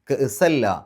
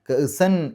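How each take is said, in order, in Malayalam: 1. n ഇരട്ട l ശബ്ദമായി ലയിക്കുന്നു. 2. അവസാനത്തെ n ശബ്ദം വ്യക്തമായി ഉച്ചരിക്കപ്പെടുന്നു. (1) "കഅസ എന്ന് പറഞ്ഞിട്ട് ശദ്ദുള്ള ലാമ് പറഞ്ഞാൽ" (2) "കഅസൻ എന്ന് പറയില്ല"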